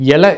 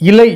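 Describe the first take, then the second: First: It begins with 'e' and ends in 'a'. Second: It begins with 'i' and ends in 'ai'. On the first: This is the everyday spoken form. "பேச்சு வழக்கில் எல என்றுதான் கூறுவோம்" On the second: This is the older, standard form. "பிழை இல்லாமல் ஒலிப்பு செய்வார்கள்"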